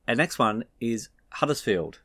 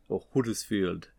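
First: Said in the usual way. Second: Huddersfield in a mock northern English accent, a bit quieter; terrible English accent. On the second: Shown as a demonstration. Presenter joking through a team name, terrible English accent. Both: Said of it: "That was a terrible accent".

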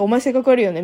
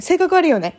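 First: 性格悪いよね said flatly and bluntly, with no cheer; the same insult, bare and unsoftened. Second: 性格悪いよね said brightly, like sharing happy news; a bubbly, sing-song put-down; cheery insult. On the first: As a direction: drop the smile and say it as a plain put-down. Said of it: "音声再生ボタン押した途端に". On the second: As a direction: deliver the insult as if it were great news. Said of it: "本当にいいニュースかのように私の悪口を言ってくる". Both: Retold or imitated.

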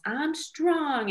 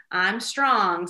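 First: Put-on high sing-out child's echo; little son's affirmation. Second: Put-on firm affirmation for a child to repeat; mom leading affirmations. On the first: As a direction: repeat it proudly like a small boy. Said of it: "So now he says". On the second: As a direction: model it clearly for a little kid. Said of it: "Okay, repeat after me".

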